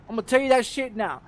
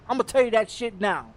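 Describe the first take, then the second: No difference in how they are said.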